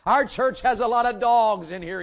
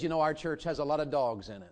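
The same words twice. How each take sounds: First: Louder, higher, preaching the line out; preacher's loud repeat. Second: Said in the usual way. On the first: Retold or imitated. Retelling the Detroit preacher, a loud preaching repeat. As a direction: boom it to the congregation like the Detroit preacher. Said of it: "he said". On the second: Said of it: "'Cause he said".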